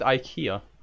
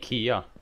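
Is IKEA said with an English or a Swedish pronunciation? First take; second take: English; Swedish. First: IKEA is said with an English pronunciation. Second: IKEA is said with a Swedish pronunciation. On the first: The speaker calls it wrong. "No, you said IKEA" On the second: The speaker calls it right. "Say how it did again"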